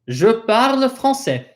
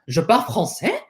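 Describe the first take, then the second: First: It is a plain statement with the voice falling at the end. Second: It is an incredulous question with the voice rising at the end.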